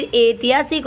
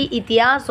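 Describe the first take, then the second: First: ऐतिहासिक opening on long e/ai; correct form. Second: इतिहास opening on short i; wrong form. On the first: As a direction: say ऐतिहासिक as ai-ti-haa-sik. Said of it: "फिर ऐतिहासिक होता है". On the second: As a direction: say इतिहास as i-ti-haas. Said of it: "न कि इतिहास होता है". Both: Shown as a demonstration.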